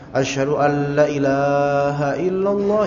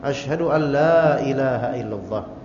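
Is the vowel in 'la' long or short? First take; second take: short; long. First: The vowel in 'la' is held short. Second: The vowel in 'la' is held long. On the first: The speaker calls it wrong. "Ini salah ini. Berubah maknanya" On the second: The speaker calls it right. "yang benar ... La-nya ini ada mad, ada panjang"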